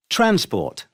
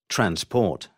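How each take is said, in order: First: TRANS-port, high-pitched first syllable; stress on first syllable. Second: Trans-PORT, second syllable stressed. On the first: Teacher showing the noun, Transport stressed on TRANS. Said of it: "stress is on the first syllable". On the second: Teacher showing the verb, transport stressed on PORT. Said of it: "second syllable when it is a verb". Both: Shown as a demonstration.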